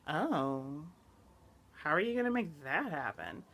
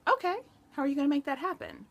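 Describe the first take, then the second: First: It sounds doubtful and dismissive. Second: It sounds supportive and practically encouraging.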